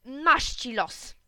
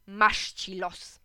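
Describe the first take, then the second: First: Slow, drawn-out pretend grumble; mock weary sigh. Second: Slow, resigned play-acting; pretend weary sigh. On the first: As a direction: say it like a bored husband, slowly. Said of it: "udajesz, że zamykasz gazetę i mówisz". (powoli, na niby zrezygnowany) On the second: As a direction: drag it out like a tired dad. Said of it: "udałem, że zamykam gazetę i powiedziałem". (powoli, udawane westchnienie)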